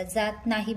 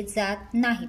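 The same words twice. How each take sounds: First: Slow, weighted "जात नाही" with नाही leaned on; pointing out जात नाही slowly; stress on नाही. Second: Said in the usual way. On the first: Shown as a demonstration. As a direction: underline नाही so nobody misses the negative. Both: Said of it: "प्रश्न बघा नीट वाचायचा".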